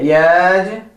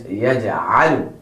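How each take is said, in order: First: Exaggerated wrong "Yaj'alu", stretched vowel for ayn; Yaj'alu mispronounced. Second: "Yaj'alu" in one piece, ayn from the throat; careful correct model of "Yaj'alu"; Yaj'alu pronounced correctly. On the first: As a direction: drag "Yaj'alu" apart without any throat sound. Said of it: "Do not say Yaj'alu". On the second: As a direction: say "Yaj'alu" lower, with a clear mid-throat A. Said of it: "the correct one is". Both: Shown as a demonstration.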